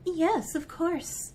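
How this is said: It is said in a put-on fancy voice.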